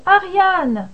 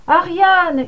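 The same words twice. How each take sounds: First: Desperate shout. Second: Ariane cried out high and loud, despairing; desperate shout. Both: A narrator's reading. Thésée calling Ariane from the drifting ship, a desperate shout. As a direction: hurl the name across the water. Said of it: "hurla-t-il".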